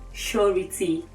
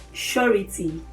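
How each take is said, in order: Both takes have the same delivery.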